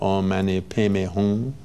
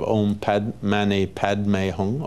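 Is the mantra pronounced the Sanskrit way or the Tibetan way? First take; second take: Tibetan; Sanskrit. First: The mantra is pronounced the Tibetan way. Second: The mantra is pronounced the Sanskrit way. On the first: The speaker calls it wrong. "corrupted Tibetan pronunciation" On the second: The speaker calls it right. "in Sanskrit with correct pronunciation"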